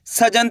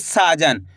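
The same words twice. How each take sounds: First: सजन with a short first vowel, sa clipped quick; wrong short a. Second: साजन with the first vowel stretched into a long saa. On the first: Teacher showing pupils the wrong way, short सजन. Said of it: "सजन थोड़ी बोल रहे हैं". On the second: Teacher showing pupils the right way, stretched साजन. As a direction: draw out the सा in साजन. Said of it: "सा का उच्चारण खींच के निकल रहा है". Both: Shown as a demonstration.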